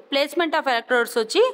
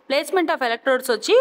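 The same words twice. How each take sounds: The two takes are said the same way.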